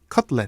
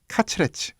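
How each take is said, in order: First: It is said in English with two syllables. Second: It is said in Japanese as katsuretsu. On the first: "영어로는 원래 커틀렛이 이음절입니다" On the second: "일본 말로는요"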